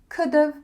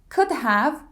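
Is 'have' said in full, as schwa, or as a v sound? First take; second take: v sound; full. First: 'Have' shrinks to a v sound. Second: Both words are said fully and separately.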